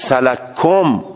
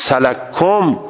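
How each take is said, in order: First: The first k is merged into the second. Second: The first k is merged into the second.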